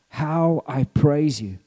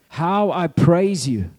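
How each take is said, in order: First: It is read in a normal speaking voice. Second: It is shouted out loudly with energy. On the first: The speaker calls it wrong. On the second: The speaker calls it right.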